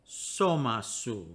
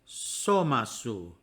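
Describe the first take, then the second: The two takes are said the same way.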